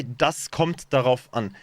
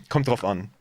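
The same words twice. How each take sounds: First: "Das kommt darauf an." slow, every syllable spelled out; stiff textbook German. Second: "Kommt drauf an." clipped, quick and relaxed; casual spoken German. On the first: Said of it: "Nobody would say". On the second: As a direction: drop the "das" and blur "drauf". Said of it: "That's more like". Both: Shown as a demonstration.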